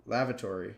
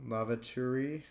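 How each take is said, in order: First: Lavatory as "LAV-a-tor-ee"; full-vowel lavatory. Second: Lavatory as "LAV-a-tree", rising at the end; shortened lavatory. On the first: Word list, says the word fully. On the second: Word list, tries two pronunciations. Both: Real, not acted.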